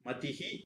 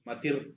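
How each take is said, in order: First: The word ends with a breathy h sound. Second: The word ends with an r sound. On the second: "மதிர் அப்படின்னு மாறி"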